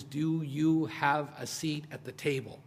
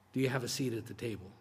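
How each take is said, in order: First: Slow question. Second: Quick aside. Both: Shown as a demonstration.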